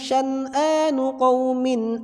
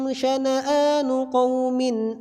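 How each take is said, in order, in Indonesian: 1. Tidak ada vokal yang mengikuti bunyi N. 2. Vokal pendek mengikuti bunyi N. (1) "Tapi di Syu'bah dibaca sukun" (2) "Nanya dibaca satu harakat"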